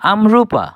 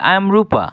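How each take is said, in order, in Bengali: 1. 'I am' এক শব্দাংশে সংক্ষেপিত হয়ে উচ্চারিত হয়। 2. 'I am' দুটি পূর্ণ শব্দাংশে উচ্চারিত হয়।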